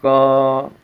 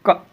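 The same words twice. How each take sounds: First: The consonant ends with a short 'a' vowel. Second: The consonant is said bare, with no vowel. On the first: "हलंत नहीं लगाएं तो इस प्रकार से इसका उच्चारण होगा क" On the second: "जब इसमें हलंत लगा देते हैं तो इसमें से अ गायब हो जाता है"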